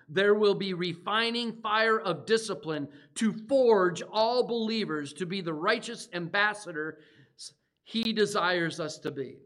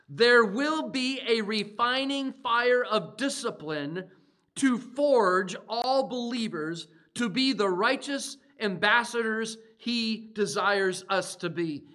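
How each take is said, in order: First: It is said at a normal pace. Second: It is said slowly.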